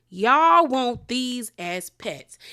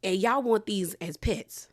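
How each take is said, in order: First: "Y'all" stretched long and loud, then every word slow; incredulous emphasis. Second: Said in the usual way. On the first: Real, not acted. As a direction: draw out "Y'all" in disbelief, spacing each word.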